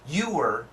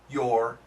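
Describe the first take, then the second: First: It is said slowly with both words full. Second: It is said faster and partly reduced. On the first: "perfect pronunciation" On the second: "If a little bit faster"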